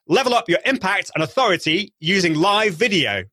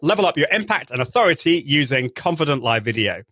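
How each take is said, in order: First: It is said with more, over-the-top energy. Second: It is said with moderate, workshop-level energy.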